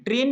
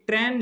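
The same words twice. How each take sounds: First: "ट्रेन" with a long closed "ay", like English "train"; wrong syllable sound. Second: "ट्रेन" with an open "ae" vowel, like "tran"; correct syllable sound. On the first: Teacher showing what not to write, "ट्रेन" said with closed vowel. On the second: Teacher showing the spelling to write, "ट्रेन" said with open vowel. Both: Shown as a demonstration. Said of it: "ट्रेन नहीं लिखना है".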